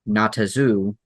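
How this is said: It is run together as one word. It sounds like a single made-up word. "Say it as one word"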